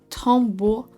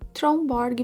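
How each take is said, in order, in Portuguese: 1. É dita com pronúncia dinamarquesa. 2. É dita com pronúncia portuguesa. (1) "A pronúncia dessa marca, na verdade, é algo do tipo Tombow" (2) "Que é a forma que a gente lê em português esse nome"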